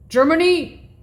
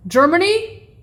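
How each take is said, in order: Both takes have the same delivery.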